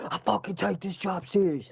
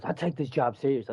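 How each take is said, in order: First: Higher-pitched, indignant imitation of a coworker yelling; retold angry yell. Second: Said in the usual way. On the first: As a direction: mimic him blowing up, pitch jumping up. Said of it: "Who the fuck you yelling at".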